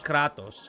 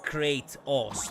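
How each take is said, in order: First: The name is pronounced the Greek way. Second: The name is pronounced the English way. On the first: The speaker calls it right. "the name in Greek is just Kratos. Straightforward and simple" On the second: The speaker calls it wrong. "Not Kratos. That is like a phrasing they use in English"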